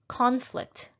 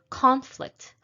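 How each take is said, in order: Both takes have the same delivery.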